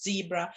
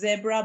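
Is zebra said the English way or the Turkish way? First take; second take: English; Turkish. First: The word is said with English pronunciation. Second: The word is said with Turkish pronunciation. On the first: "in English it's zebra" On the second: "in Turkish it's zebra"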